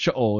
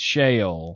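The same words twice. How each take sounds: First: It is said with a Hebrew pronunciation. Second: It is said with a Southern accent. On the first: "And if you're Hebrew" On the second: "So if you're in the South"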